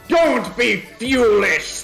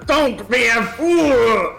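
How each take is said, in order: First: The word is said like 'fuel' with a glide. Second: The word is said with a plain 'fool' vowel. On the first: The speaker calls it right. "Let me try that again" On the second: The speaker calls it wrong. "he wouldn't say foolish, he'd say fuelish"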